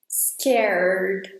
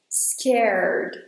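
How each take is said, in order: First: It goes straight from R to D. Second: The same.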